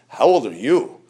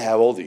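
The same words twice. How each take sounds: First: It is asked in a rude, incredulous way. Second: It is asked as a plain, neutral question.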